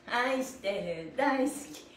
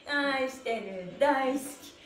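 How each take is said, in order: Both takes have the same delivery.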